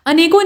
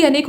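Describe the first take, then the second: First: अनेकों ending in nasal -on; nasal o closing अनेकों; added plural ending. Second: अनेक ending cleanly on k; bare ending. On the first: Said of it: "अनेकों नहीं बल्कि अनेक". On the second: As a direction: say अनेक with no vowel after k. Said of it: "बल्कि अनेक होता है". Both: Shown as a demonstration.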